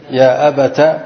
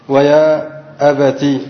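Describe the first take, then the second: First: "أبت" ending in -ta; ta with fatha. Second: Slow "أبتي" ending in -ti; ta with kasra. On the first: Teacher showing the second form, "أبت" said abata. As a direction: finish "أبت" on an open a after the t. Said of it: "بفتح التاء". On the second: Teacher showing students the kasra form, "أبتي" said slowly as abati. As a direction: finish "أبتي" on a held i. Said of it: "مكسورة، فنقول". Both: Shown as a demonstration.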